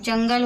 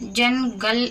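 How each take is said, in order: First: The n blends into the following g sound. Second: The n is said as a separate, clear sound. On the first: The speaker calls it right. "नून गाप के साथ मिलकर जंगल हो रहा है" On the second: The speaker calls it wrong. "जनगल नहीं पढ़ रहे हैं"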